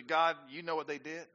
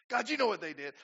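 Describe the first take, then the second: First: Tattling prayer. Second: Mock whiny tattle to God; tattling prayer. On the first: Retold or imitated. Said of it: "My opening prayer for them is usually". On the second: Preacher mocking his own tattling prayer, mock whine. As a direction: tell on them to God, a bit higher and louder. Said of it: "I'm tattling on them".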